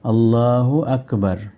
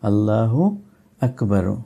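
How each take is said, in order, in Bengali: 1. শেষ শব্দ 'r' ব্যঞ্জনধ্বনিতে শেষ হয়। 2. শেষ শব্দ 'u' স্বরধ্বনি দিয়ে শেষ হয়। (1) "এই দাম্মাকে পড়বেন না" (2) "যদি তারপরেও কিছু পড়তে চান"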